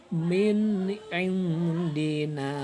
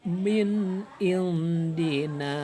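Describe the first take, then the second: No difference in how they are said.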